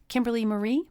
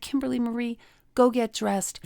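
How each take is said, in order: First: Displeased mom. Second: A hint of a stern mother; stern mom. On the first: Retold or imitated. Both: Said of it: "when she wasn't happy with me".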